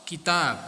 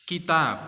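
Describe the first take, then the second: No difference in how they are said.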